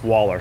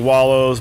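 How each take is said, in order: First: The word ends with an 'er' sound. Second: The word ends with an 'oh' sound.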